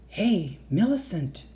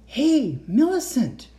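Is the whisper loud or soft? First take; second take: soft; loud. First: It is whispered very softly. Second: It is whispered more loudly.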